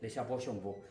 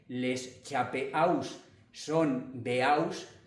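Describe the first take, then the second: First: The silent final letters are not sounded. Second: The words are sounded out letter by letter. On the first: It is how French is actually spoken. The speaker calls it right. "en francés se dice" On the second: It follows the spelling exactly. The speaker calls it wrong. "estamos diciendo lo que, lo que está escrito"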